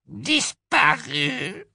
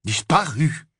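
First: Very high, very slow elf wail; Kreacher, despairing. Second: Put-on stunned boy's echo, higher; Harry echoing. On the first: Acted. Kreacher tells Harry the locket is gone, wailing. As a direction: stretch it out like a broken old elf. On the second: Harry echoes Kreacher in dismay. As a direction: repeat it in shock, joy draining. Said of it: "répéta Harry, comme en écho".

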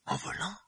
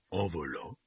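First: High, disbelieving echo; astonished. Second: Said in the usual way. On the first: A narrator's reading. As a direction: repeat it in disbelief.

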